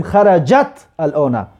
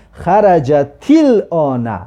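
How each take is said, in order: First: "خرجت الان" as two words, xarajat al-ona, with a plain t; separated words. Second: "خرجت الان" run together slowly as xa-ra-ja-til-ona; linked with kasra. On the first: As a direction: keep the final t of "خرجت" vowelless and start "الان" afresh with al. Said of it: "لیکن ما در وقت خواندن حاضر اینجا نگفتیم". («خرجت الان» جدا، با تای ساکن) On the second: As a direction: add an i after the t of "خرجت" and glide into "الان", drawn out. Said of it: "حالا من خواندم که". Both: Shown as a demonstration.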